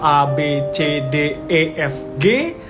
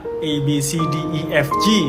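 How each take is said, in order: First: The letters are named the Dutch-influenced Indonesian way. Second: The letters are named the English way. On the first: This is how Indonesians say the alphabet. "Jadi kami melafalkan abjad itu" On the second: This is how Malaysians say the alphabet. "sementara Malaysia ... just like English"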